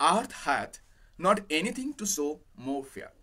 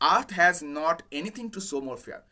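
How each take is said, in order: First: The second word ends with a 'th' sound. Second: The second word ends with an 's' sound. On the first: It uses the old archaic verb form. "এই যে হ্যাথ বলে যে উচ্চারণটা, সেটা কিন্তু old English" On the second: It uses the modern verb form. "তো পড়ার সময় এটা হ্যাজ বলেই বলছি।"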